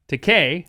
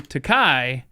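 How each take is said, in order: First: The name ends with a 'kay' sound. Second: The name ends with a 'kye' sound. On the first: This is how the bearer says his own name. "it is pronounced Takei, according to George himself" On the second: It sounds like the Japanese word for expensive. "if you do Takai, that means in Japanese the word for expensive"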